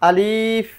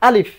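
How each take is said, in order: First: The vowel is drawn out long. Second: The vowel is cut short. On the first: The speaker calls it wrong. "আলিফ হবে না" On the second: The speaker calls it right. "শুরুতেই শেষ করতে হবে, শুরু করে সময় নেওয়া যাবে না"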